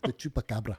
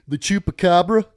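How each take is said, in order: First: Chupacabra is said with a Spanish accent. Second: Chupacabra is said with an English accent. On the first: The speaker calls it right. "he's trained me to say it right" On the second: The speaker calls it wrong. "corrects me if I say it wrong"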